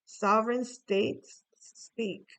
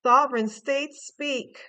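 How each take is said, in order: First: Said in the usual way. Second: "Sovereign" hit loud, slow and proclaiming; proclamation. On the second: Pretend. Tarot reader proclaims the card's words like a herald, loud. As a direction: announce "Sovereign states speak" like a royal decree. Reading a card's message aloud.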